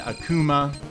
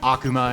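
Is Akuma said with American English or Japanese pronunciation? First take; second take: American English; Japanese. First: It is said with American English pronunciation. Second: It is said with Japanese pronunciation. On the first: "So for most Americans, that would mean Akuma" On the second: "I want to always pronounce this right. And so you'll hear me say like Akuma"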